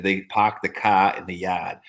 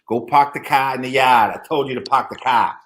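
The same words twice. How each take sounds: First: Slow, r-dropped Boston accent, "park" as pahk; lightly drawn-out Boston accent, "yard" as yahd. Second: Louder, r-dropped Boston order, "park" as pahk; barked Boston accent, "car" as cah; bossy Boston accent. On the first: Friend showing off the Boston accent to the group, slow Boston accent. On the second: Bostonian telling someone off to park, louder Boston accent. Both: Shown as a demonstration. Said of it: "Boston has the thickest Boston accent".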